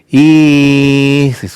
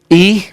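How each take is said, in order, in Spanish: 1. Se alarga, con tono vacilante, como esperando. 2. Se dice de forma seca, con tono despectivo. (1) "que significa estoy esperando algo" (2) "que significa ¿qué te importa, no?"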